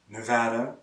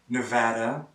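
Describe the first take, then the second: Both takes have the same delivery.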